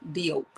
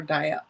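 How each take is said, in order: First: Diop said as DEE-ope; tentative pronunciation. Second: Diop said as DYE-ah; alternative pronunciation. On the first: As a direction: say Diop with a long O and a closing P. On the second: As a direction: say Diop with an open AH ending, no P. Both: Shown as a demonstration. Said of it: "I don't know how to pronounce it".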